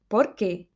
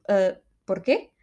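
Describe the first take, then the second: First: Brazilian porquê. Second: Spanish porquê. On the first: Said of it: "É mais assim, não?". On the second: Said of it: "lá estou eu a falar espanhol". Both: Shown as a demonstration.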